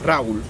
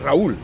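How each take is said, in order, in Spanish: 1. El acento está en la primera sílaba. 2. El acento está en la última sílaba. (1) "pero en quechua es; la mayor fuerza de voz se da en la penúltima sílaba" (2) "mi nombre en español es"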